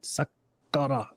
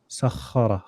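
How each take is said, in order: First: The middle consonant is a hard, rigid k. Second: The middle consonant is a throaty, rasping kh. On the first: The speaker calls it wrong. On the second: The speaker calls it right. "let there be movement at the back"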